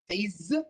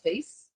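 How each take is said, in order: First: The word ends with a buzzing z sound. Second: The word ends with a hissing s sound. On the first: The speaker calls it right. "we pronounce it with Z" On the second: The speaker calls it wrong. "not face"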